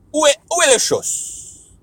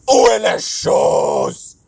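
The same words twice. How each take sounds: First: Dramatic French. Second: Slow, loud crying-out French; wailing French. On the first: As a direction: ham up the French. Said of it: "when I talk another language". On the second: Speaker wailing a French phrase, mock tragic. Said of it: "Where's the stuff?". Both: Pretend.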